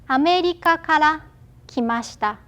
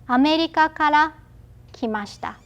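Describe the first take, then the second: No difference in how they are said.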